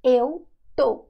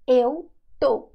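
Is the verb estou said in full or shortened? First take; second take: shortened; shortened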